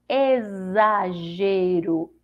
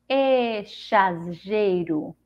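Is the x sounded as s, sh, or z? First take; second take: z; sh. First: The x is pronounced as a z sound. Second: The x is pronounced as an sh sound. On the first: "Com som de Z" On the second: "O som do C H"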